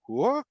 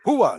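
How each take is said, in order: First: It sounds puzzled and questioning. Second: It sounds eager and energetic. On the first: The speaker did not understand. "like I didn't understand" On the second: The speaker is ready to act. "let's do it"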